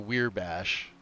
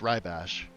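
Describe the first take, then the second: First: The first syllable sounds like weir. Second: The first syllable sounds like rye. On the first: The speaker calls it wrong. "or weir bash" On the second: The speaker calls it right. "It's it's rye bash"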